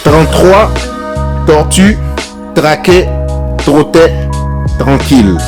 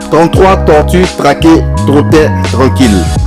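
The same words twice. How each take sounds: First: It is said at a normal, steady pace. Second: It is said at a faster, quicker pace. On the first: "le dire normalement" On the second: "à un débit un peu plus élevé, accéléré"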